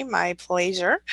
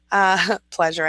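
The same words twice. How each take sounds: First: Slow, put-on prim reading of a comment; mock fancy voice. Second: Laughing at herself. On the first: Thanking a viewer in a mock fancy slow voice. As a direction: read it in a slow, affected voice she doesn't really use. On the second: Real, not acted. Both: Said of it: "I don't really talk like that".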